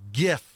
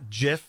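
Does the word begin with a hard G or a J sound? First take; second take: hard G; J sound. First: The word begins with a hard G sound. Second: The word begins with a soft J sound. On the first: The speaker calls it right. "you got the G and graphics. So GIF" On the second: The speaker calls it wrong. "not JIF"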